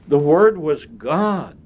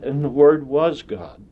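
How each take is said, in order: First: The stress is on "God". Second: The stress is on "was".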